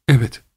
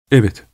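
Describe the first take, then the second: First: With a deep sigh. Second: A firm, decided yes; firmly. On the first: Mother admitting a secret to her son, with a deep sigh. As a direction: let the yes sink on a sigh. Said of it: "dedi derin bir iç çekişle". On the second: Mother answering her son, firm and decided. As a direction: say it with resolve. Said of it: "dedi kararlı bir tavırla". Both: Acted.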